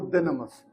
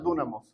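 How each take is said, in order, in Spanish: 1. Se pronuncia con el sonido griego. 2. Se lee letra por letra, al estilo español. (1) "se pronuncia en griego" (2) "en español si la leemos es"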